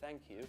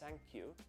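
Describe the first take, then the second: First: Thank begins with a th sound. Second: Thank begins with an s sound. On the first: "instead of" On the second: "change the th sound to a Z or an S"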